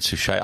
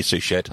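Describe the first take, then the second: First: Suchet said soo-SHAY, the T silent, light stress on the end; pronouncing Suchet. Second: Suchet said soo-SHET-a, the T sounded with a small trailing vowel; trying another Suchet. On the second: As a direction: try Suchet with a hard T at the end, soo-shet. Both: Shown as a demonstration. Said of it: "I think it could be Suchet".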